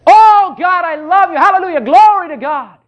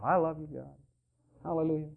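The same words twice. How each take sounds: First: Much higher and louder ecstatic "Oh, God, I love you"; wholehearted praise. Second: Mumbled, much softer, reluctant "I love you, God"; half-hearted praise. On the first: Preacher shows how to praise in faith, loud and ecstatic. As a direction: throw your whole heart into the praise. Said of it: "Do it in faith". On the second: Preacher mocks the self-conscious worshipper, soft and reluctant. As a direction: say it like you're embarrassed to. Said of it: "God wants you to do it with all your heart". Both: Shown as a demonstration.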